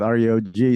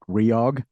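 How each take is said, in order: First: The name is spelled out letter by letter. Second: The name is said as one single word. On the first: "Sometimes you spell it out like that" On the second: "Sometimes we say it Reog"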